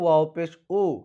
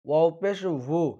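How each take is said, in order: First: The last syllable is a bare vowel. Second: The last syllable starts with a v-like sound. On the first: The speaker calls it wrong. "এখানে অনেকে বলে ওয়াও পেশ উ, উ বলা যাবে না" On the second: The speaker calls it right.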